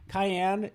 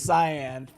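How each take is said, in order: First: It is said like the pepper, cayenne. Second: It is said with two syllables, sigh-an. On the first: The speaker calls it wrong. "I think I said cayenne, like it's a pepper" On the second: The speaker calls it right. "it's cyan"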